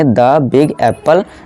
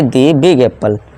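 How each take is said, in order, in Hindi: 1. 'The' का उच्चारण छोटे 'uh' स्वर के साथ होता है। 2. 'The' का उच्चारण लंबे 'ee' स्वर के साथ होता है। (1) "यहाँ हम द प्रोनाउंस करेंगे" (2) "ना कि दी बिग एप्पल"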